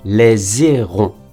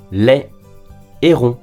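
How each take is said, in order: First: The two words are linked with a z sound. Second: The two words are kept separate, no linking sound. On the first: The speaker calls it wrong. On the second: The speaker calls it right.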